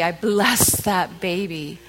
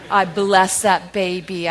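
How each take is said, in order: First: Tender blessing. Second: Louder, slow and deliberate blessing. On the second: Pastor blessing a fussing baby mid-sermon, slow. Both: Real, not acted.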